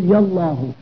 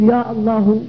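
First: "يا الله" run together as yallah, no glottal stop; one linked word, "يا الله" said as yallah; hamza elided. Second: "يا الله" as ya-Allah, glottal stop before "الله"; full hamza at the start of "الله" in "يا الله"; hamza pronounced. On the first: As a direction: join "يا" straight onto "الله". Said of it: "وبوصلها أي بعدم نطقها". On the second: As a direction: separate "يا" from "الله" by sounding the hamza. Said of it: "بقطع الهمزة أي بنطق الهمزة". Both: Shown as a demonstration.

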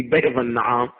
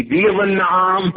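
First: بيض with an open "ay", "bayd"; fatha on بيض. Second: بيض with a long "ee", "beed"; kasra on بيض. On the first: Teacher reads it both ways, fatha on بيض. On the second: Teacher reads it both ways, kasra on بيض. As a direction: close the first vowel of بيض to "beed". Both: Shown as a demonstration. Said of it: "على القولين".

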